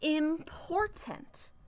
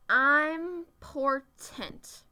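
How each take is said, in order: First: The first vowel is the short sound in 'it'. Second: The first vowel sounds like the word 'eye'. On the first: The speaker calls it right. "it also says I. ... If I say it fast" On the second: The speaker calls it wrong. "I know I am says I'm usually, so I'm gonna try that"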